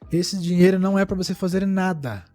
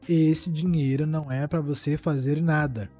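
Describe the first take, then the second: First: It is said at a normal pace. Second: It is said very slowly.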